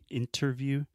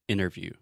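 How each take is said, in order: First: The T after the N is clearly pronounced. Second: The T after the N is dropped. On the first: "I'm not saying interview" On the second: "I do not pronounce the T. ... I'm saying interview"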